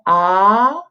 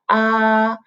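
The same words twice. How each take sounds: First: The pitch rises from middle to high. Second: The pitch stays high and level. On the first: "second tone ah, go up" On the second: "the first tone is like ah"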